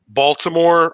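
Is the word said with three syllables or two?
three. It is said fully, with all three syllables.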